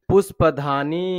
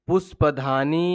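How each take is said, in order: First: Said in the usual way. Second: ପୁଷ୍ପଧାନୀ said slowly, with the final long ନୀ drawn out; stretched long ii. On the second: Shown as a demonstration. Teacher showing pupils the long ii in ପୁଷ୍ପଧାନୀ, slow and drawn out. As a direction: draw out the last vowel of ପୁଷ୍ପଧାନୀ, each syllable slow. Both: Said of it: "ଦୀର୍ଘ ଉଚ୍ଚାରଣ କରୁ ଟିକେ ଲମ୍ବେଇକି".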